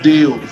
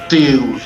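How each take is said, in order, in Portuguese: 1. A palavra começa com som de D. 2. A palavra começa com som de T. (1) "você fala Deus" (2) "Você não fala Deus, né, com T"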